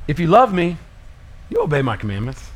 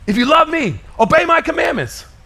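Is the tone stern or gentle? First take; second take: gentle; stern. First: It sounds gentle and loving. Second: It sounds stern and demanding.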